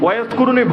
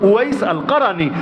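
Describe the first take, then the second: First: It is said as Waiz Kuruni, without al. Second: It is said as Wais al-Qarani, with al. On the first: The speaker calls it wrong. "ওয়াইজ কুরুনি ভুল উচ্চারণ" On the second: The speaker calls it right. "মূল হলো ওয়াইস আল কারানি"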